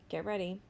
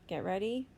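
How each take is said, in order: Both takes have the same delivery.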